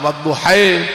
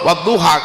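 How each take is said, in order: First: It is said with a Spanish-like added i ending. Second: It is said with a plain Arabic ending.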